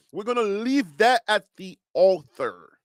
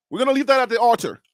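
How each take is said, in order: First: Liberian-accented "altar", sounded like "author". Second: "altar" with a clear T, not "th"; quick corrected take, crisp T in "altar"; corrected pronunciation. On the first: Real, not acted. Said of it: "that's your Liberian accent". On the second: Shown as a demonstration. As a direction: restate it briskly, saying "altar" as AWL-ter. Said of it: "not author".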